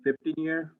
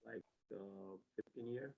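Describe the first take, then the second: First: Repeated louder and higher. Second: Barely audible mumble; too quiet. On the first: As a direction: say it again so they can hear. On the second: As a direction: answer quietly, almost inaudible. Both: Real, not acted. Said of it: "You gotta talk louder".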